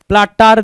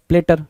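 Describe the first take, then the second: First: प्लाटार with two long AA vowels; misspelt pronunciation. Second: प्लेटर with a short "ter" ending; correct pronunciation. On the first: Teacher reads out what the paper gives, प्लाटार with "taar". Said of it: "यहाँ पे क्या दे रखा है". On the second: Teacher gives the proper spelling's sound, प्लेटर ending in "ter". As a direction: say प्लेटर as "PLAT-er". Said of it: "P L A double T E R होता है". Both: Shown as a demonstration.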